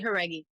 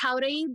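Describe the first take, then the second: First: The name is said with an anglicized pronunciation. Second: The name is said with its original pronunciation. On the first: It is the everyday version used in American life. "I say Haregi for American in American life" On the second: It is the proper form of the name. "it's it's Jauregui"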